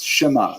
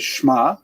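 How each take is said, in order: First: A brief half vowel follows the sh sound. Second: There is no vowel after sh at all. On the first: The speaker calls it right. "It's shema. It's a little bit of a gap in there" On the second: The speaker calls it wrong. "You don't say shma"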